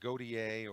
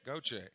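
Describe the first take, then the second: First: The name is said with a 'dee-ay' ending. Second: The name is said with two syllables, ending 'shay'. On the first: The speaker does not know the local pronunciation. The speaker calls it wrong. "They haven't done their homework if they'll say Godier or some other weird pronunciation" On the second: The speaker knows the local pronunciation. The speaker calls it right. "you always know that they've done their homework if they pronounce Goche"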